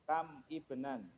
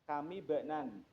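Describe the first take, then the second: First: The two words are said separately, not linked. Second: The two words are linked with a joining vowel. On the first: "Kalau dibaca putus" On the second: "kalau dibaca nyambung"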